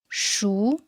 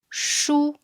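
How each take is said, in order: First: The pitch rises from mid to high. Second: The pitch stays high and level. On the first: "The second tone is a rising tone" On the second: "With the first tone, we read it high and flat"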